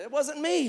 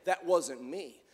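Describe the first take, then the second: First: Casual denial. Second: Low casual denial. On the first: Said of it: "he was not just saying". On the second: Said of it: "He was, he was not just saying". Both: Retold or imitated.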